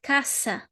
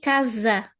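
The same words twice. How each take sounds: First: The middle consonant is a hissing s sound. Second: The middle consonant is a buzzing z sound. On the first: The speaker calls it wrong. "not casa" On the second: The speaker calls it right. "but we say casa"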